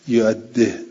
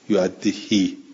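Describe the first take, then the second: First: The final kasra is said very briefly, half-swallowed. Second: The final kasra is lengthened into a full long vowel. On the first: "یه جوری که هم این کسره هم گفته بشود و گفته نشود، اینجوری ها" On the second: "بل اشبا ... یعدهی اینجور"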